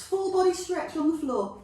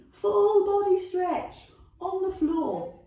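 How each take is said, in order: First: Said in the usual way. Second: Full body stretch, pitched up and louder, with gusto; louder excited repeat. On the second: Shown as a demonstration. Fitness teacher cheering on her class, louder and higher.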